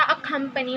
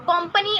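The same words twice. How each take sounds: First: अ कंपनी with a clear opening a; correct pronunciation. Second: कंपनी without the opening a sound; wrong pronunciation. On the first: Teacher giving the right form of accompany. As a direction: start अ कंपनी with a distinct a. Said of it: "अ कंपनी होता है". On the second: Teacher showing the wrong form of accompany. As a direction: say कंपनी, dropping the first vowel. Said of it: "कुछ नहीं होता". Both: Shown as a demonstration.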